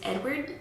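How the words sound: The name is pronounced the English way. "I said the English pronunciation"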